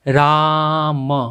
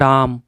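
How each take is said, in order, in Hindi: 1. स्वर को खींचकर लंबा रखा जाता है। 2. स्वर जल्दी से और छोटा बोला जाता है। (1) "और ज़्यादा उच्चारण देना है जैसे" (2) "अगर आप जल्दी से उच्चारण करते हैं तो जो सबसे पहले ऐसे बोलते हैं"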